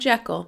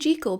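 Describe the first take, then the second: First: Jekyll is said with the later film pronunciation. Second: Jekyll is said with its original pronunciation. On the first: "decided to call him Jekyll" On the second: "I say Jekyll because apparently that was the original pronunciation"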